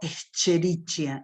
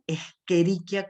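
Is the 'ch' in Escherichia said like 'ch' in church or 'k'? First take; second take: ch; k. First: The 'ch' is said as in church. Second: The 'ch' is said as a hard k sound. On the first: The speaker calls it wrong. "y no Escherichia" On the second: The speaker calls it right. "se lee Escherichia coli ... la C H se pronuncia como en el italiano"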